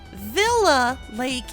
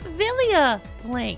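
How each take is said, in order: First: The first word has two syllables. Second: The first word has three syllables. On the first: The speaker calls it wrong. "thought that it was called Villa Lake" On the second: The speaker calls it right. "in actuality it is called Vilia Lake"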